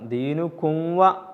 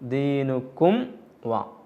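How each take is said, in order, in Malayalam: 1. മീം ശബ്ദം wa-യിലേക്ക് മങ്ങി ലയിക്കുന്നു. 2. wa-ക്ക് മുമ്പുള്ള മീം ശബ്ദം വ്യക്തമായി ഉച്ചരിക്കുന്നു. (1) "ദീനുക്കും വ എന്ന് പറയാൻ പാടില്ല" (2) "ഇവിടെ മീമിനെ വെളിവാക്കിയിട്ടാണ് ഓതേണ്ടത്"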